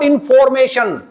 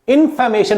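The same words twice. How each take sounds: First: The second syllable is a full 'for'. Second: The second syllable is a reduced, weak 'fer'. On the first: The speaker calls it wrong. "Not" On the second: The speaker calls it right. "फोर की जगह फे हो जाएगा"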